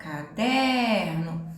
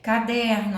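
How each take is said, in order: First: "Caderno" very slow, stretched on DER; som estendido. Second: Said in the usual way. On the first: Shown as a demonstration. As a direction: hold the middle syllable of "Caderno". ("Caderno" alongando bem o "der") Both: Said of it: "O som se estende aqui".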